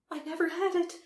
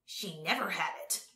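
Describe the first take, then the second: First: High, loud Empress protesting; old Empress. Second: Put-on understated spiteful old vizier; vindictive old man. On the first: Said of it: "repeated the Empress". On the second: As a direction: accuse her with a touch of spite. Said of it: "with a vindictive look at his sister". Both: A narrator's reading.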